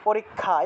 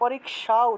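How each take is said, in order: First: The final cluster sounds like k plus kh. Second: The final cluster sounds like k followed by sh. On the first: The speaker calls it wrong. "ক যোগ খ লাগিয়ে দিই" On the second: The speaker calls it right. "বাংলাতেও আসলে পরীক্ষা উচ্চারণ করা উচিত ছিল"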